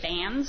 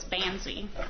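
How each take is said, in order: First: The name is said with one syllable. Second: The name is said with two syllables. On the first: The speaker calls it wrong. "Usually I get bans" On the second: The speaker calls it right. "so it's bansy"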